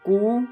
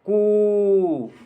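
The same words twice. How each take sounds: First: The sound is held only briefly. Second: The sound is drawn out very long. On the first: "पहले कू" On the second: "last में बोलता है वो कू"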